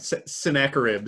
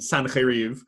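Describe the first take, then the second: First: The name is said with an English pronunciation. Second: The name is said with a Hebrew pronunciation. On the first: "Sennacherib sounds like like you're having a snack of ribs" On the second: "I like the Hebrew pronunciation"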